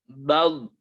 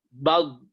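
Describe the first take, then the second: The two takes are said the same way.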